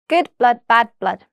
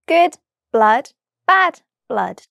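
First: The phrase is said very quickly. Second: The phrase is said very slowly. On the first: "the second time very quickly" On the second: "once very slowly"

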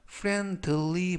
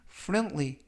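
First: The d sound is clearly pronounced. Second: The d sound is nearly silent. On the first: The speaker calls it wrong. "friendly 보다는" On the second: The speaker calls it right. "알파벳 D가 묵음은 아니지만 발음할 때 거의 들리지 않습니다"

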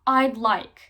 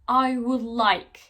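First: I would is contracted to one syllable. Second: I would is said as two full words. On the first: "kısaltma olarak" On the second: "Nasıl söylüyoruz?"

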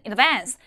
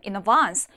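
First: It is said in a plain, non-British way. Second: It is said with a British accent. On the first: "백날 그렇게 스펠링 외워봤자" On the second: "영국 발음"

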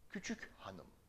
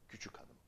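First: The h in hanım is clearly pronounced. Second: The h drops and the words link together.

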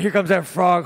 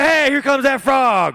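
First: It is said in a horrified, fearful tone. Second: It is said in a cheerful, optimistic tone.

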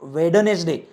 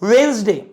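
First: The d sound in the middle is pronounced. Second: The d sound in the middle is silent. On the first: The speaker calls it wrong. "No not वेडनेसडे" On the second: The speaker calls it right. "That is वेन्सडे"

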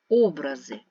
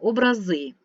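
First: The stress is not on the last syllable. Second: The stress is on the last syllable. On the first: It means images or pictures of something. "Образи природи, ми можемо сказати" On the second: It means icons, depictions of saints. "коли наголос на останнє слово"

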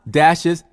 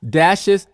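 Both takes have the same delivery.

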